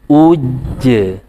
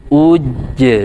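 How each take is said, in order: First: The doubled j is held and released with a bounce. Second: The same.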